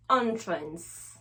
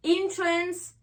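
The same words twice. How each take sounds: First: Entrance begun with "on", pitched lower; "on" first syllable. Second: Entrance begun with "in", pitched higher; "in" first syllable. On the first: Teacher contrasting noun with verb, low "on" in entrance. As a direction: drop onto an open "on" in entrance. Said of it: "on va faire le son en". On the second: Teacher contrasting verb with noun, high "in" in entrance. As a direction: lift a clear "in" at the start of entrance. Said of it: "on va faire le son in". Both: Shown as a demonstration.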